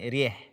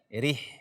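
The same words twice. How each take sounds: First: The vowel leans toward an e sound. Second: The vowel is a pure i sound. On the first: The speaker calls it wrong. "bukan rih" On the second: The speaker calls it right. "Tetapi kasrah"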